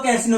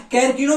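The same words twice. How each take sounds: First: कैसिनो said with an S in "sino"; variant with S. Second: कैरकिनो said with a hard K in "kino"; variant with K. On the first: Teacher giving the other pronunciation, कैसिनो with S sound. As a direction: say कैसिनो as "kai-SEE-no", no K in the middle. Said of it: "कुछ लोग कैसिनो भी कह देते". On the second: Teacher giving one accepted pronunciation, कैरकिनो with K sound. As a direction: say कैरकिनो as "kair-KEE-no". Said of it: "भी कुछ लोग कह देते हैं". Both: Shown as a demonstration.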